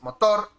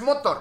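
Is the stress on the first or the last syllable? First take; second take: last; first. First: The stress is on the last syllable. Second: The stress is on the first syllable. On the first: The speaker calls it right. "es motor" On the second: The speaker calls it wrong. "No es motor"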